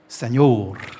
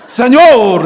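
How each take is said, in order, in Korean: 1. 약하게, 힘을 주지 않고 말합니다. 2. 세게, 배에서 힘을 주어 말합니다. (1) "정확히 이렇게 해요" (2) "배에다 힘을 주라고. 그래서 세뇨르 이렇게 해야 되는 거라고"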